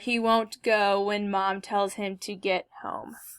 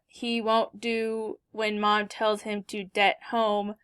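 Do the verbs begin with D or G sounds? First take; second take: G; D. First: The verbs begin with G sounds. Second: The verbs begin with D sounds. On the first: The speaker calls it right. "instead of saying" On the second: The speaker calls it wrong. "they might say something like"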